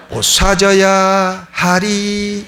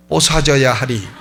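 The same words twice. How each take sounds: First: Very slow, half-sung 뽀사져야 with a long held 하리; drawn-out Gyeongsang hymn. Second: 뽀사져야 said as Gyeongsang po-sa-jyeo-ya through a laugh, falling; 뽀사져야 laughed out in Gyeongsang dialect; Gyeongsang dialect version. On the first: Pastor mock-singing the dialect hymn to the church, very slow. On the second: Pastor quoting the Gyeongsang hymn with a laugh, 뽀사져야 in dialect. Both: Retold or imitated. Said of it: "이렇게 부릅니다".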